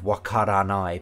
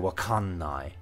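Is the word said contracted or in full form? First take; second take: full; contracted. First: The word is said in full with ra. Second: The ra is shortened into an n sound. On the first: "instead of wakaranai" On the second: "R's can shorten into N's"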